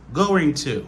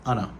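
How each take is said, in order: First: Both words are pronounced fully and separately. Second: The words are reduced further to anna. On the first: This is standard careful speech. "ça, c'est la prononciation normale" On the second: This is even faster casual speech. "qui parle plus vite, qui pas même dit gonna. Il a utilisé Anna"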